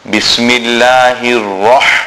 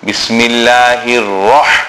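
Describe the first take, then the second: First: The r sound is heavy and full-mouthed. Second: The r sound is heavy and full-mouthed.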